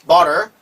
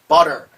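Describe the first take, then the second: Both takes have the same delivery.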